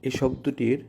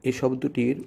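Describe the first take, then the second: Both takes have the same delivery.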